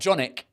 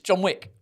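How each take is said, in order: First: The w sound is dropped between the words. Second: The w sound is clearly pronounced. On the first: The speaker calls it wrong. "It's not Johnick" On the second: The speaker calls it right. "It's John Wick"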